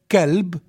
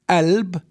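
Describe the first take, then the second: First: The word begins with a plain k sound. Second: The word begins with a glottal stop sound. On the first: "In some area with ka" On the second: "In some areas, it's pronounced as alb"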